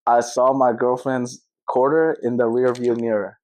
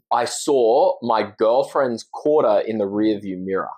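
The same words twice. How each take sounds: First: American accent, slow and careful. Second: Light Australian accent, slow and careful. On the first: Host repeats the tongue twister in his American accent. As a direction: say it the American way, slowly. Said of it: "You say it in yours". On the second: Guest demos his tongue twister in an Australian accent. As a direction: say it the Aussie way, slowly. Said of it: "I'll say it in the Australian accent". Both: Shown as a demonstration.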